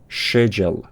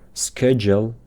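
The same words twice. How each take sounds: First: It is said in a British accent. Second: It is said in an American accent. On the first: "تلفظ بریتیش میشه" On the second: "تلفظ امریکن میشه"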